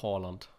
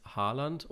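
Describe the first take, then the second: First: Haaland with "aw" for the A; Norwegian-style Haaland. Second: Haaland with an open "ah"; German Haaland. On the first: Host offers co-host the other pronunciation, Haaland as "Hawland". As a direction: round the first vowel of Haaland to "aw". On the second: Host offers co-host the first pronunciation, Haaland with "ah". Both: Shown as a demonstration. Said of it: "auf eine Aussprache einigen".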